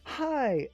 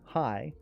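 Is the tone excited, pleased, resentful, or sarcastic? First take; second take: excited; sarcastic. First: It sounds thrilled and full of excitement. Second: It sounds mockingly cheerful and sarcastic. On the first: It has been so long since we met. "as in, "Oh my god, I haven't seen you in months. How are you?" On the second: Seeing you does not make me happy. "but now it's, "Oh, it's you. Yay. My day's complete." Sarcasm"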